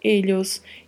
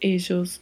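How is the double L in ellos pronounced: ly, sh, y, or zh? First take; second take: ly; zh. First: The double L sounds like a palatal ly. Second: The double L sounds like the s in measure. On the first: "duplo L com som de LH" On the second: "duplo L com som de J"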